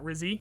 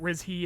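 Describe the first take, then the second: First: The middle consonant is a plain 'z' sound. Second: The middle consonant is a soft 'zh' sound. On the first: The speaker calls it wrong. "and not Rizzy" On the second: The speaker calls it right. "I guess you pronounce it Rizhi"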